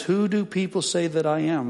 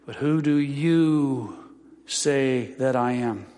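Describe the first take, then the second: First: Said in the usual way. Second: Slow, with "you" leaned on hard; "But who do you say that I am?", landing on "you"; stress on you. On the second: Shown as a demonstration. Pastor showing the Greek emphasis, slow stress on "you". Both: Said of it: "the emphasis is on the word you".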